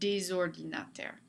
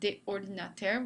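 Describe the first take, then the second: First: A z sound links the words without pause. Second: A pause separates the words, with no z sound. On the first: The speaker calls it right. "they like to make this word slide into each other" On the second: The speaker calls it wrong. "instead of des ordinateurs with that pause"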